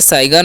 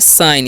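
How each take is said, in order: First: The word is said with a g sound. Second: The word is said with no g sound. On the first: The speaker calls it wrong. "इसे साइगर नहीं पढ़ना, यहाँ पर जी silent है।" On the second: The speaker calls it right. "तो इसे हम पढ़ते हैं साइन।"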